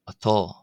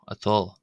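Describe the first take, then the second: First: The vowel is a rounded 'aw' sound. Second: The same.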